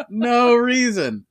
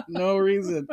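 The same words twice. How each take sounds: First: Higher, louder, slow NO reason; milk the innocent denial; hammed-up no reason. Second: Laughing it off lightly. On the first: Host repeats his denial after Jesus talk, hammed up and slow. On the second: Real, not acted. Host shrugs off the Jesus talk, laughing. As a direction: say it through a laugh.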